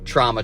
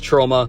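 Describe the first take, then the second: First: The first vowel is said like in 'raw'. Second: The first vowel is said like in 'row'. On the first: The speaker calls it wrong. "I pronounced this in my last few videos" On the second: The speaker calls it right. "This is Troma. I know it's Troma"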